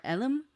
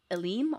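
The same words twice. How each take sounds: First: Elim with a short open E, EL-um; alternative pronunciation. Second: Elim with a weak first vowel, uh-LEEM; unsure pronunciation. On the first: Second guess at an alien name, Elim as EL-um. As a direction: try Elim stressed on the first syllable. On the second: Guessing at an alien name, Elim as uh-LEEM. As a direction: try Elim stressed on the second syllable. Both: Shown as a demonstration. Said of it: "I'm gonna butcher these so bad".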